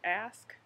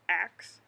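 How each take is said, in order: First: The s sound comes before the k. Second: The k sound comes before the s. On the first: "as opposed to ask" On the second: "a street thing where people grow up saying that"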